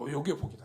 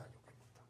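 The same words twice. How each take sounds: First: Said in the usual way. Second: "요게 복이다" breathed out in a whisper; a hushed whispered "요게 복이다". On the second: Shown as a demonstration. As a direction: lean in and whisper "요게 복이다" like a secret. Repeats phrase, then whispers it.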